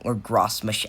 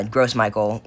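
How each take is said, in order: First: Second try at "Gross Mich-", the last word begun with a soft sh and cut off; unsure French-style attempt at "Gross Mich-", left unfinished; alternative pronunciation. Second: Gross Michael, second word said like the English name Michael; unsure first try at "Gross Michael", English-style; tentative pronunciation. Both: Real, not acted. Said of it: "however you say it".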